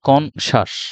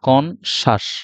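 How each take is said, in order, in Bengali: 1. মাঝের অংশটি 'sh' ধ্বনির মতো বলা হয়। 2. মাঝের অংশটি 'sh' ধ্বনির মতো বলা হয়।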